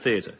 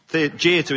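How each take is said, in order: First: It is said with a standard British pronunciation. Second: It is said with an Irish pronunciation.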